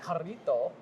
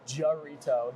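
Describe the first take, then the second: First: The word is said with a strong Spanish accent. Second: The word is said with a heavy American accent. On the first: "But that sounds racist if I do it" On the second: "You could really whiten it up"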